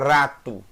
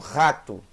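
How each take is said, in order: First: The r is made with the tongue tip. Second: The r is a rough sound in the throat. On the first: "Dificilmente você fala rato" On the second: "sem querer elas estão usando o som do Het"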